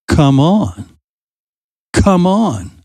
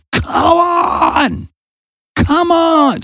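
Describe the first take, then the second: First: Said in the usual way. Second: Imitating Jesus shouting over the storm; shouting across the storm. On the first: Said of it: "you see Jesus saying to him". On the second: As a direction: call him out of the boat, much higher. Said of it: "Jesus was shouting at Peter".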